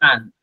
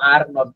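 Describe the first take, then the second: First: It is said as one contracted word. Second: It is said as two separate words. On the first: The speaker calls it right. "এটাকে একদম এক এক এক শব্দে বলবেন" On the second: The speaker calls it wrong. "ইউ আর নট বলবেন না।"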